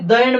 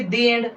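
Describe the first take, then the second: First: 'The' has a short, neutral vowel. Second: 'The' has a long 'ee' vowel. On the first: The speaker calls it wrong. "द end म्हणणार की" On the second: The speaker calls it right. "याला आपण दी एंड म्हणणार"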